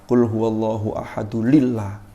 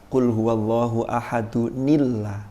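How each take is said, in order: First: Ahad is linked to Allah with an l sound. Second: Ahad is linked to Allah with an n sound. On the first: The speaker calls it wrong. "Ada orang yang keliru" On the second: The speaker calls it right. "Harusnya gimana?"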